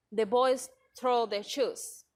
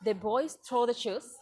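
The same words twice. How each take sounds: First: Slow, measured declaration with SHOES falling at the end; affirmative statement. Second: Same words asked as a question, SHOES lifting at the end; interrogative intonation. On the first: Teacher giving an affirmative example, falling statement tune. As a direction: state it slowly, dropping the pitch on "shoes". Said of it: "in an affirmative statement". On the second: Teacher giving the interrogative version, rising question tune. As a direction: ask it by raising the pitch on "shoes". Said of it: "say it in an interrogative statement". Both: Shown as a demonstration.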